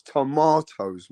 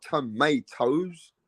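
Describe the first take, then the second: First: "tomatoes" slowly as tuh-MAH-toes; drawn-out British "tomatoes"; British pronunciation. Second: "tomatoes" slowly as tuh-MAY-toes; slow mock-American "tomatoes"; American pronunciation. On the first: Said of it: "It's tomatoes". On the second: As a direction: spell out the rejected American "tomatoes", stretched ay. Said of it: "not tomatoes". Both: Shown as a demonstration.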